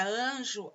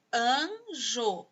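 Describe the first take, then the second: First: Said in the usual way. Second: "Anjo" drawn out in two separate syllables. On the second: Shown as a demonstration. Teacher showing two sounds to pupils, "Anjo" syllable by syllable. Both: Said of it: "ela tem dois sons".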